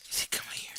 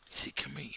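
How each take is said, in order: First: Whispered coax. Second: Said in the usual way. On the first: Real, not acted.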